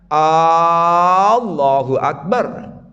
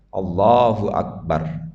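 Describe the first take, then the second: First: The opening A vowel is drawn out long. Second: The opening A vowel is kept short. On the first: The speaker calls it wrong. "tidak boleh A-nya panjang. Salah itu" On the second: The speaker calls it right. "sebaiknya tidak panjang"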